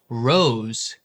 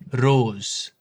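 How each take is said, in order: First: The R is an untapped, approximant R. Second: The R is tapped lightly with the tongue.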